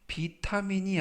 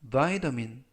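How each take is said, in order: First: It is said like the Korean loanword. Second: It is said with English pronunciation. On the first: The speaker calls it wrong. "비타민이 아니라" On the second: The speaker calls it right. "vitamin이라고 발음하시면 되겠고요"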